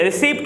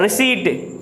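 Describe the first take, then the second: First: "रिसीप्ट" as ri-SEEPT; wrong pronunciation. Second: "रिसीट" ending in a plain eet; correct pronunciation. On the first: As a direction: say "रिसीप्ट" with the p sounded. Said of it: "रिसीप्ट नहीं होता". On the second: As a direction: say "रिसीट" as ri-SEET. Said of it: "इसको पढ़ा जाता है". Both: Shown as a demonstration.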